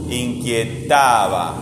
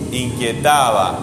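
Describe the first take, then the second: First: "Inquietaba" drawn out very slowly; very slow syllable stress. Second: "Inquietaba" said slowly, syllable by syllable; slow syllable stress. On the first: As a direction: crawl through each syllable of "Inquietaba". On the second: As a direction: stretch out "Inquietaba" to find the strong syllable. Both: Shown as a demonstration. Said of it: "¿qué sílaba suena fuerte?".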